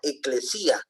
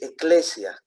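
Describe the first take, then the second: First: The stress falls on the i syllable. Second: The stress does not fall on the i. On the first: "Algunos le ponen eh, tilde en la i, sería eclesía" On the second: "Otros dicen que es eclesia"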